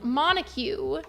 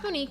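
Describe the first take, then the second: First: The name sounds like MON-ta-gyoo. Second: The name sounds like mo-NEEK. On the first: The speaker calls it wrong. "thought her name was pronounced like Montague" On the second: The speaker calls it right. "it's pronounced Monique"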